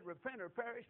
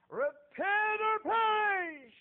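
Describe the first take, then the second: First: Said in the usual way. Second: Very high, very loud, drawn-out yell; loud, slow, high call to repent; street preacher's cry. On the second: Retold or imitated. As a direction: hurl the warning at the crowd slowly.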